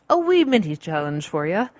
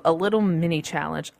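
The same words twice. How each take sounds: First: Playful, hammed-up Irish lilt; bad Irish accent. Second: Said in the usual way. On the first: Host jokingly introducing a challenge to listeners, bad Irish accent. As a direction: put on a horribly fake Irish accent.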